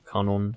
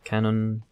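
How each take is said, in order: First: The name is pronounced in a Japanese way. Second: The name is pronounced the plain English way.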